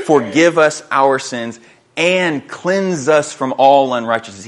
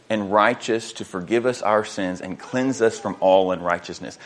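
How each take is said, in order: First: Slow and punched on "forgive", "and cleanse" and "all"; deliberate weight on "forgive" and "cleanse", word by word; emphatic stress. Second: Said in the usual way. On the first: Shown as a demonstration. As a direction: hammer both halves, drawing out "and" before "cleanse". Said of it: "he makes a point to stress this".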